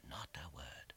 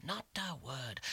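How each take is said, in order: First: Breathless hush; hushed whisper. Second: Said in the usual way. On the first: A narrator's reading. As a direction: whisper the silence. Narration, silence behind the door.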